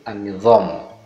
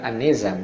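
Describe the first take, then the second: First: The z is a heavy, emphatic z sound. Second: The z is a plain, light z sound. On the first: The speaker calls it right. "Harusnya di di bawah huruf Z itu ada tanda titik satu" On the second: The speaker calls it wrong. "bukan An-Nizam"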